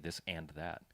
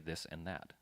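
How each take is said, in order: First: The word 'and' is pronounced in full. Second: The word 'and' is reduced to a short 'n'. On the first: "It sounds weird when you say this and that" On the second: "People say this and that"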